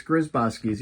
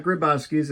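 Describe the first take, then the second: First: "Grzybowski's" with a Z sound after the GR; correct pronunciation. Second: "Grybowski's" with plain GR, no Z sound; mispronounced name. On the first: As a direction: say "Grzybowski's" keeping the buzzed Z after GR. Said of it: "It's not Grybowski's". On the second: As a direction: say "Grybowski's" the wrong way, dropping the Z. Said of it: "that's how you pronounce it". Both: Shown as a demonstration.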